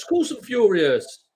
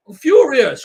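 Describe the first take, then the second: First: Slow, higher and a little louder, the anger held; seething. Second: Much higher and louder, a burst of real anger; real furious outburst. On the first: Tipster insisting to a viewer that he's angry, slow seething. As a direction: lean on "course", slow and pressing. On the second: Tipster answering a viewer about the lost points, furious shout. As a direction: blurt the fury out at full volume. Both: Real, not acted.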